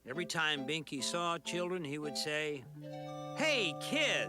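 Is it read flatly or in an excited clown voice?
flat. It is read in a flat, plain voice.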